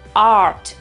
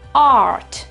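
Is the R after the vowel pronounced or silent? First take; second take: pronounced; pronounced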